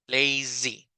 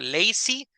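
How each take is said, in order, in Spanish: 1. La consonante del medio vibra con la voz. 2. La consonante del medio no tiene vibración de voz. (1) "este es un zumbido más como de mosquito. Zzz" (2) "sin la vibración"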